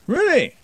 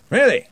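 First: Much higher still, astonished; doubly amazed; even more surprised. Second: Much higher and louder, amazed; genuinely impressed; surprised. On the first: Surprised wizard again. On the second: Surprised wizard. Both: A narrator's reading.

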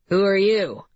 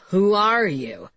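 First: "you" carries the question in "Who are you"; plain question. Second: "are" stressed and drawn out in "who are you". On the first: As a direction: ask "Who are you" leaning on the last word. Suspect first asks a stranger. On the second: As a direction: slowly press on "are", insisting on an answer. Suspect repeats question, wanting role. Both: A narrator's reading.

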